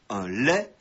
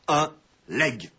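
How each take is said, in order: First: The word ends in a vowel, no g. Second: The final g sound is pronounced. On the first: The speaker calls it right. "rappeler la prononciation correcte" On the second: The speaker calls it wrong. "la prononciation actuelle et courante"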